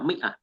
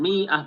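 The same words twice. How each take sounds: First: The vowel after the m is short. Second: The vowel after the m is long. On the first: The speaker calls it right. "Tetapi apa? Mi'ah" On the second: The speaker calls it wrong. "nggak boleh dipanjangkan mimnya. Bukan mi'ah"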